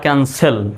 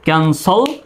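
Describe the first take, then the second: First: The last syllable sounds like 'sel'. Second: The last syllable sounds like 'sol'. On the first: "দুটো উচ্চারণই সঠিক" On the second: "সেল বা সল দুইভাবে উচ্চারণ করা যায়"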